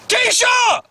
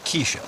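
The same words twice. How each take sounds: First: The name is yelled loudly. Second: The name is said at a normal, quiet volume. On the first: The speaker calls it right. "You gotta yell it" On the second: The speaker calls it wrong. "Before that, I didn't hear anything"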